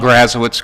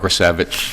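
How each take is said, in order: First: The name ends with an 'owitz' sound. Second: The name ends with an 'evich' sound. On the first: This is the everyday anglicized way he says it. "I'm not going to change it now" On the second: This follows the original Slavic pronunciation. "that's the right way to say it"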